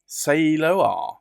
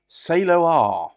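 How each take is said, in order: First: It is pronounced the Japanese way. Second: It is pronounced the Japanese way.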